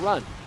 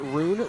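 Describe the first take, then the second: First: The vowel is short, as in run. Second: The vowel is long, as in room. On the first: "run like I'm going for a run" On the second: "rune like room"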